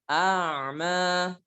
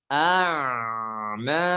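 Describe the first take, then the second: First: The 'm' sound is held moderately, not too long. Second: The 'm' sound flows out for too long. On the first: The speaker calls it right. "kita baca pertengahan" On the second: The speaker calls it wrong. "jangan a'ma ... itu terlalu rokhawah"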